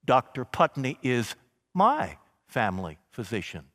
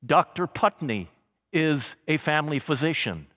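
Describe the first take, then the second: First: "my" leaned on, warm and personal; stress on my. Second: Said in the usual way. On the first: Shown as a demonstration. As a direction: linger on the word "my". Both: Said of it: "You hear how it changes".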